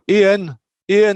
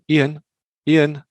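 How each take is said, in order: First: It is shouted loudly. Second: It is called at normal volume.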